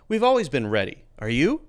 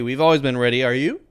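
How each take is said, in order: First: A short pause separates the two sentences. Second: The two sentences run together without a pause. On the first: The speaker calls it right. "you need a little pause as a way to mark the sentence" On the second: The speaker calls it wrong. "It's weird and it's not good"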